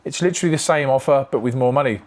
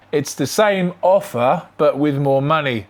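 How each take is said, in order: First: Said in the usual way. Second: Slow, mocking repeat with "same" drawn out and rising, then "more money" falling; sarcastic stress on same. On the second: Shown as a demonstration. Mocking the seller's excuse, slow with "same" stretched and rising. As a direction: lean on "same" to show the claim doesn't add up. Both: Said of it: "Therefore, it's not the same offer".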